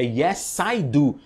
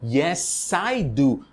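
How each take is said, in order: Both takes have the same delivery.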